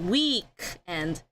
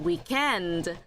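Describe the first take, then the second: First: The stress is on the first syllable. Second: The stress is on the second syllable. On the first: This is how it is said in American English. "in American English we say week and" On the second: This is how another speaker, possibly British, says it. "he would always stress weekend"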